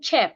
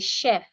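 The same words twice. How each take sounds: First: It begins with a 'ch' sound. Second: It begins with an 'sh' sound. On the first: The speaker calls it wrong. "instead of saying chef" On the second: The speaker calls it right. "we would say chef"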